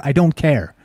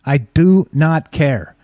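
First: Said in the usual way. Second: "I do not care" very slow, every word hit separately with "not" stressed; slow, emphatic. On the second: Shown as a demonstration. Insists to listeners he does not care, slow emphatic.

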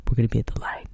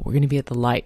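First: Hushed conspiratorial whisper; whispered aside to a college girl. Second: Said in the usual way. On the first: Retold or imitated. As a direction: breathe it like a secret meeting spot. Secret meeting place, hushed. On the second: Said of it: "Remember that, the light".

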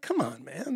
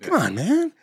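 First: Soft, muted exasperated plea; quiet remonstration; exasperated appeal. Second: High-pitched mock exasperated appeal; Joe Biden. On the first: Retold or imitated. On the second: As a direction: exaggerate the plea as a quick political impression. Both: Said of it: "I sound like Joe Biden".

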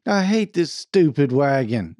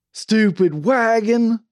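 First: Half-hearted, timid complaint; mildly hesitant grumble. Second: Slow, loud, high holler; drawn-out angry shout; demonstrative yell. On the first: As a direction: try to yell but hold back. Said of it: "said Claude timidly". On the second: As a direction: yell it with gusto, stretching both words. Demonstrates how Claude should yell. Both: A narrator's reading.

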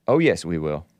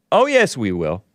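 First: A much lower, put-on voice for the retort; deep mock retort. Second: Said in the usual way. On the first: Host repeats the retort in a low mocking voice. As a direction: answer back in a low, gloating mock voice.

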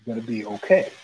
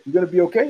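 First: "You're gonna be okay" said low and measured; veiled threat intonation. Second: Said in the usual way. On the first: Retold or imitated. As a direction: drop "gonna be okay" low, as a quiet warning. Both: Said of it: "the third time the guy heard the intonation".

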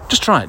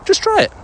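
First: Said in the usual way. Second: Just try it pushed up high and emphatic; urging. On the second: Real, not acted. Urging viewers to try Marmite combos, eager high push. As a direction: sell the snack hard, sudden high urge.

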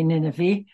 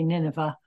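First: Nineveh ending in a long "ee"; other speaker's pronunciation. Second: Nineveh ending in a soft "uh"; alternative pronunciation. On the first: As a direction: say Nineveh as NIN-uh-vee. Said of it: "and you say Nineveh". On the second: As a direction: say Nineveh as NIN-uh-vuh. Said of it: "if I say Nineveh". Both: Shown as a demonstration.

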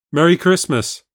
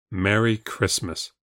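First: Higher, louder, cheery Merry Christmas; a chirpy festive greeting. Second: Slow, subdued Merry Christmas; grudging, drawn-out festive greeting; unenthusiastic reply. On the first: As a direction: wish it brightly, with lift. Sam greets at midnight. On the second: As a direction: return the greeting without any cheer. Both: A narrator's reading.

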